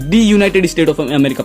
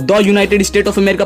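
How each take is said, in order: First: The first word is pronounced 'thee'. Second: The first word is pronounced 'thuh'. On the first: The speaker calls it right. "तो इसको मैं दी पढ़ूंगा" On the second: The speaker calls it wrong. "द United state of America पढ़ूंगा"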